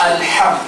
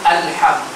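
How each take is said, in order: The two takes are said the same way.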